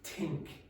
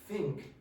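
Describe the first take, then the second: First: It begins with a plain 't' sound. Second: It begins with a voiceless 'th' sound. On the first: "change it to tink" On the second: "When you pronounce think"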